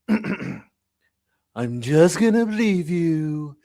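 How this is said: It is said in an imitated, put-on voice.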